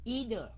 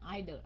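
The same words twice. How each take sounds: First: It is said with a non-British pronunciation. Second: It is said with a British pronunciation.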